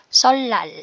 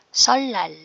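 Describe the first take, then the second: Both takes have the same delivery.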